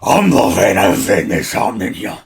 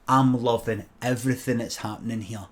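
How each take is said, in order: First: It is said in a tough, macho manner. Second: It is said in a plain, unforced manner.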